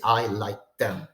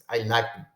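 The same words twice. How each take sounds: First: "I like them" lower, every word fully stressed; separately accented them. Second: "I like them" stressed on "like", "them" tucked in weakly; only first accent. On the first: Teacher showing what you don't say, them fully stressed. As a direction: pronounce "them" in full with its own accent. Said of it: "And you don't say". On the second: Teacher showing the lost accent, only like stressed. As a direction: hit "like" and let "them" lose its accent. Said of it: "you only hear the first accent". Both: Shown as a demonstration.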